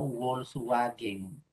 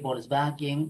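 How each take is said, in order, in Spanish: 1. La "W" se pronuncia como "U". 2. La "W" se pronuncia como "B". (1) "y no" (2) "¿Cuándo suena como B? En palabras que provienen del alemán. Se dice"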